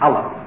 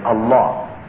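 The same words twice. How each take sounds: First: It is said with an anglicized, Western pronunciation. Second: It is said with a native Arabic pronunciation. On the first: The speaker calls it wrong. "it's usually pronounced in the West as Allah" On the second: The speaker calls it right. "We pronounce it actually as Allah"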